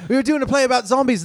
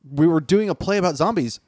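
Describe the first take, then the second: First: It is said with the character's put-on accent. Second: It is said without the character's accent.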